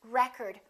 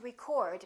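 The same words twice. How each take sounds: First: The stress is on the first syllable. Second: The stress is on the second syllable. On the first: It is a noun. "first syllable" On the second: It is a verb. "If it's a verb, we get the second syllable"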